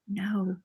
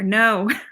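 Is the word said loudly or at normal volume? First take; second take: normal; loud. First: The word is said at normal volume. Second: The word is said more loudly.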